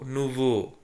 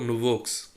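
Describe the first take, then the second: First: The final x is silent. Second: The final x is sounded. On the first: The speaker calls it right. "No change in the pronunciation" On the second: The speaker calls it wrong. "So don't uh, read like that"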